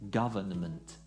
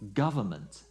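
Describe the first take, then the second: First: Every sound is fully pronounced. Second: A middle sound is left out. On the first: The speaker calls it wrong. "not government" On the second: The speaker calls it right. "often pronounced government"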